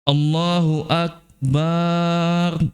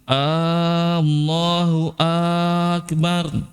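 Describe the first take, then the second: First: The a after b is drawn out. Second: Both opening a vowels are drawn out. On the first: Allah is a drum. "banyak yang dipanjang bukan hamzah" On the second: Is Allah the greatest? "dua-dua hamzanya dipanjangin"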